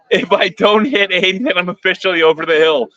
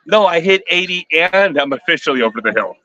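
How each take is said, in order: First: Said in the usual way. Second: "and" stretched out for emphasis; stress on AND. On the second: Real, not acted. Streamer correcting a viewer about hitting eighty, stress on "and". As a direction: lean on "and" to join both claims.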